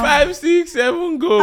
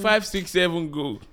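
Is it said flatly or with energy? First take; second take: energy; flatly. First: It is said with lots of energy. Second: It is said in a plain, flat way.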